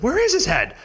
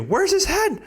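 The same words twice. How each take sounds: First: High, louder stressing is; retold high question, is stressed; frantic chorus. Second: High, louder mock of frantic mom; retold high panicked question. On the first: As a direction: imitate them all asking, high. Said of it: "they all said". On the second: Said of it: "my mom, too".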